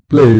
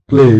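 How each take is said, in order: No difference in how they are said.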